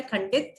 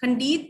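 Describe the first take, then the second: First: "खंडित" with short "dit"; "khan-dit", short ending in "खंडित"; correct pronunciation. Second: "खंडित" with long "deet"; higher "khan-deet" for "खंडित"; wrong pronunciation. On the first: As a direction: keep the I of "खंडित" brief. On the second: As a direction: stretch the I of "खंडित". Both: Shown as a demonstration. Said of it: "खंडित नहीं होता है".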